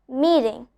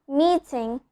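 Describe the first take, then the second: The two takes are said the same way.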